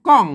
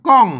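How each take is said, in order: The two takes are said the same way.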